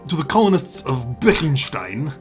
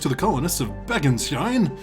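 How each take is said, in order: First: It is read in a heavy, thick accent. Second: It is read in a plain, ordinary voice.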